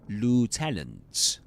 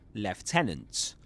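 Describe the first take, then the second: First: It is said with an American English accent. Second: It is said with a British English accent.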